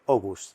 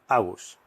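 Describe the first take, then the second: First: The first vowel sounds like O. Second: The first vowel sounds like A. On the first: The speaker calls it right. "la doble A se lee O en danés. ... se dice" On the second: The speaker calls it wrong. "y no"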